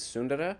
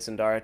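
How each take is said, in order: First: The name is said with an Indian pronunciation. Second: The name is said with an American pronunciation. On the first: "the Indian pronunciation is Sundara" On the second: "You said Sundara"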